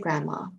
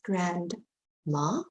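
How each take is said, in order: First: The D sound is dropped from the middle. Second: The D sound is pronounced in the middle. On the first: "but we say grandma. We don't always pronounce the D" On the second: "It is spelled grandma"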